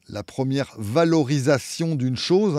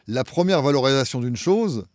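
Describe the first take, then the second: First: It is spoken slowly with each word clearly articulated. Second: It is spoken at a normal, casual pace.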